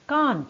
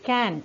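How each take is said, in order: First: It is said with a British accent. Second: It is said with an American accent.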